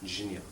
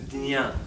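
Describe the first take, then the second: First: The syllable is said as j plus nya. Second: The syllable is said as d plus nya. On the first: This is the likely original form. "originally just a jnya. Ja and nya" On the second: This is the way in some regions. "In some parts of India they say the dnya"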